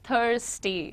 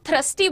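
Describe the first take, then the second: First: The first syllable sounds like 'thurs'. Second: The first syllable sounds like 'thrus'. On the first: The speaker calls it right. "जैसे थर्टी बोलते हो ना, वैसे थर्स्टी" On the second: The speaker calls it wrong. "थर्स्टी को लोग थ्रस्टी बोलते हैं बहुत बार"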